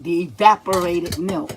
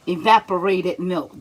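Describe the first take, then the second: First: "evaporated" repeated with firm weight; stress on evaporated. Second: "evaporated" ditekan jelas; stressing the word. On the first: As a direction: drive home "evaporated". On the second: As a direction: say "evaporated" firmly as the correction. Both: Shown as a demonstration. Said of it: "not condensed".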